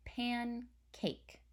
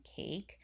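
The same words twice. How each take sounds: First: "Pancake" said smoothly as one word; "Pancake" said as one falling word; whole word. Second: "pan" then a pause before "cake"; "cake" set apart after a break; syllable split. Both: Shown as a demonstration. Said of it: "my voice kind of pauses as I say the word".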